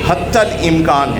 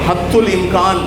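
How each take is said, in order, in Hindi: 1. पहला शब्द 'hattal' की तरह बोला जाता है। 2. पहला शब्द 'haddul' की तरह बोला जाता है। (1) "डिक्शनरी में देखें तो ये हत्तल इम्कान है" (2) "सब बोलते हैं हद्दुल इम्कान"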